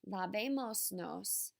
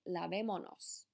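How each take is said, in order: First: An s sound comes before the final nos. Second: No s sound comes before the final nos. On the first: The speaker calls it wrong. "instead of saying" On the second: The speaker calls it right. "you're going to say"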